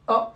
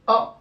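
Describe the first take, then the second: First: The vowel is short and brief. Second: The same.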